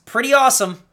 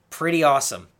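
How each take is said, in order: First: Hyped. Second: Said in the usual way. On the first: Shown as a demonstration.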